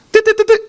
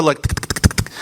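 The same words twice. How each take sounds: First: Much higher squeaky tick tick; high mechanical ticking sound. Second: Soft breathy tick tick of a loose screw; hushed clock-like ticking; whispered ticking. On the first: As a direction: tick it out high like a tiny screw. Screw ticking loose. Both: Retold or imitated.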